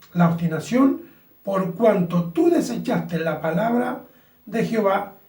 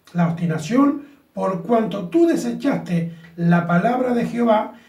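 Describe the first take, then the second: The two takes are said the same way.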